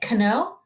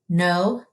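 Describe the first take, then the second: First: The word starts with a K sound before N. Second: The word starts with an N sound, no K. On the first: The speaker calls it wrong. "We don't say kno" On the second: The speaker calls it right. "Our K is silent"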